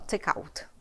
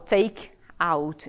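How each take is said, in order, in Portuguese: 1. As duas palavras são ditas juntas. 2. As duas palavras são ditas separadamente. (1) "eu falo take out" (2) "eu não falo take out"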